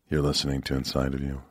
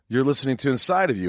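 First: The voice is low-pitched, deep and somber. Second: The voice is bright, upbeat and cheerful. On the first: The speaker seems sad. "this lower register voice" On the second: The speaker is having a good day. "It's like, hey, I'm having a good day"

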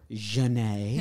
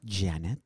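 First: The name is said with French pronunciation. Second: The name is said with English pronunciation.

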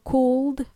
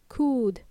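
First: The L sound is pronounced in the word. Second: The L is silent, with a long oo vowel. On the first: The speaker calls it wrong. "I don't want to hear you say would or could" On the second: The speaker calls it right. "the L is silent. ... it's a long oo"

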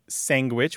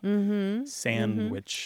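First: It is said with a g sound after the n. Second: It is said with no d sound after the n. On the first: "which you point out" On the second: "sandwich without the D"

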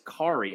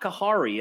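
First: No H sound is pronounced in the name. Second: An H sound is pronounced in the name. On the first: The speaker calls it right. "the H is silent" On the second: The speaker calls it wrong. "So it's not Kahari"

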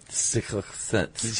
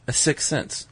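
First: The consonants in 'sixth sense' are slurred and stumbled. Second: The consonants in 'sixth sense' are pronounced cleanly. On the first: The speaker calls it wrong. "thanks for the impression of me" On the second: The speaker calls it right. "Well said, [name]"

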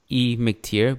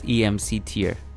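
First: A lone E, then the name McTier. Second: Letters E-M-C spelled out, then tier. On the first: "You said your Twitter was E McTier" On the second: "I read it as EMC tier"

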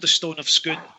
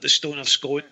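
First: The last word does not rhyme with stone. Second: The last word rhymes with stone. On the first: This is the official name. "so it's called the Stone of Scone" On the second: This is a personal habit that sounds nicer. "I always called it the Stone of Scone for a long time because it just sounds better. I mean, stone and scone"

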